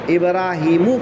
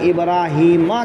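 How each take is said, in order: First: The word ends with a 'u' vowel. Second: The word ends with an 'a' vowel. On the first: Abraham asked things of his Lord. "मीम को ज़म्मा के साथ पढ़ा जाए" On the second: God tested Abraham. "इब्राहीमा के मीम पर ज़बर"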